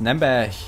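It is said in Franconian dialect.

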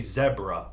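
It is said with a British pronunciation. "they say zebra"

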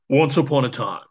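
It is said in a dramatic movie-trailer voice.

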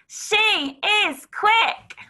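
The words are shouted in a loud voice. "Can you shout it?"

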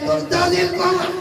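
It is said in a pained, strained voice. The reciter has a stomach problem. "যার যে ভাইয়ের পেটে একটু সমস্যা ছিল"

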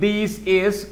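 The words are said separately, robot-like.

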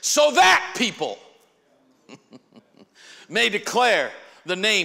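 The word 'that' is stressed, pointing to 'people'. A specific people, the church, will declare the Lord. "I say it a little differently. Here's how the way I say it"

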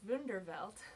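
The name is said with German pronunciation. The speaker calls it wrong. "my instinct is to pronounce it as Wunderwelt"

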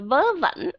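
The words begin with a v sound. This is how Northern speakers say it. "giọng của người miền Bắc, giọng chuẩn đó là âm vờ"

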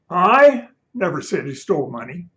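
The word 'I' is stressed.

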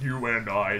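It is said in a put-on deep voice.

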